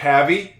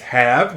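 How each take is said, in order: First: An extra vowel sound follows the V. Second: The word ends on the V sound. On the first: The speaker calls it wrong. "That is not havey" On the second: The speaker calls it right. "It's have. It's got a silent E"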